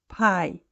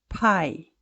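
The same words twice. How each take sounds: First: The P has a strong burst of air. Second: The same.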